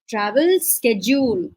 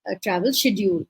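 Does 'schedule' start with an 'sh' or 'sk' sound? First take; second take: sk; sh. First: Schedule begins with a 'sk' sound. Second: Schedule begins with a 'sh' sound. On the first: "American स्केड्यूल" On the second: "बीई में हम बोलेंगे travel शेड्यूल"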